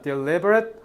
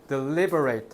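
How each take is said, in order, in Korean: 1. 마지막 음절은 짧고 약하게 줄어든 'rit'입니다. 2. 마지막 음절은 완전한 'rate'입니다. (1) "이거 발음 두 개야. deliberate 하면 고의적인" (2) "deliberate 하면 심사숙고하다"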